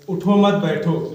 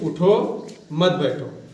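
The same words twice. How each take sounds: First: There is a pause right after 'mat'. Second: There is a pause right after 'utho'.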